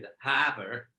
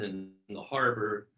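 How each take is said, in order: First: It is said in a Boston accent. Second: It is said in a standard American accent.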